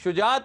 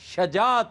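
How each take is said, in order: First: The first vowel is a short u sound. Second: The first vowel is a short a sound. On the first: The speaker calls it wrong. "ये शुजात नहीं होता" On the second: The speaker calls it right. "शजात होता है। ये जबर के साथ है, पेश के साथ नहीं है।"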